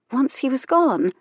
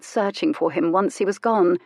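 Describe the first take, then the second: First: "Once he was gone?" lifted high as a shocked question; stunned question. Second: Said in the usual way. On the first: A narrator's reading. She repeats her own thought, aghast at the idea. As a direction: echo "gone" back in disbelief.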